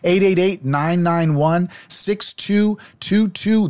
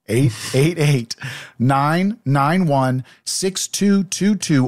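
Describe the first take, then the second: First: The number is said fast. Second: The number is said slowly.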